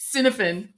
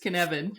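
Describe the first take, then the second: First: It is said as the English spelling suggests. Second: It is said with the Welsh pronunciation. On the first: The speaker calls it wrong. "looks like" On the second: The speaker calls it right. "is how you say it"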